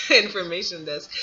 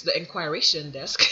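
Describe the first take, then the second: First: "information" said correctly, with a laugh; laughing correction "information"; self-correction. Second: "inquiration" said for information, kwai-RAY-shun; the slipped word "inquiration"; mispronounced word. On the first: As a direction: fix it to "information" after a laugh. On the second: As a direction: say "inquiration" with a kw sound. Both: Real, not acted.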